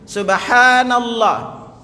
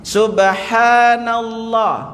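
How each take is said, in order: Both takes have the same delivery.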